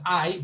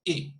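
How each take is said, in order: First: "I" said as eye; long I vowel. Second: "I" said as the vowel in sick, no glide; short I vowel. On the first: Teacher naming the vowel that ill lacks, "I" as eye. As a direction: give "I" its full gliding eye sound. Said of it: "So it's not I". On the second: Teacher naming the vowel in ill, "I" without the eye glide. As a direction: sound "I" as a brief ih or ee. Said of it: "it's not I, but". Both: Shown as a demonstration.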